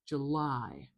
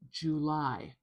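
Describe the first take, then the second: First: The first syllable is weak; the second is stressed. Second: Both syllables are about equally strong. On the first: The speaker calls it right. "The I is nice and long, it's nice and loud and clear" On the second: The speaker calls it wrong. "it does make it much more even, like"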